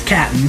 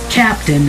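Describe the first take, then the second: First: It is said as clipped 'cap'n'. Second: It is said as full 'captain'. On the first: The speaker calls it right. "it's Captain. So it's uh, questions at C A P N" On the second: The speaker calls it wrong. "it's not Captain"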